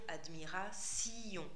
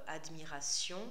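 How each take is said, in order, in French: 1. La terminaison se découpe en deux syllabes. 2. La terminaison se prononce en une syllabe. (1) "deux syllabes pour la fin" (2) "au lieu de dire"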